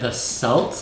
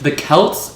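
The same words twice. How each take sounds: First: The word begins with an S sound. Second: The word begins with a K sound. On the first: The speaker calls it wrong. "like the Celtics, like the Boston Celtics" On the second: The speaker calls it right. "pronounced like with a K sound"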